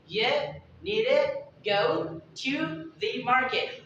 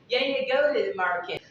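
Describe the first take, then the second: First: It is said at normal speed, fully pronounced. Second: It is said very fast with reduced words.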